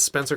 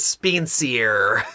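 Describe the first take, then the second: First: The name is said in a plain accent. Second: The name is said in a put-on accent. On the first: "when he says Spencer Crossing" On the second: "he says Spencier"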